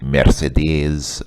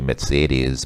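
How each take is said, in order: First: It is said with a Russian pronunciation. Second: It is said with a German pronunciation. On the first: "which is obviously a Russian pronunciation" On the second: "the German pronunciation is actually"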